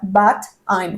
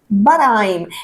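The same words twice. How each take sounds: First: The two words are said apart, one by one. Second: The two words run together into one unit. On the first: This is what learners expect it to sound like. "como si fueran las palabras sueltas" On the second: This is how it sounds in real speech. "en la vida real, ¿no es cierto? Queda but I'm"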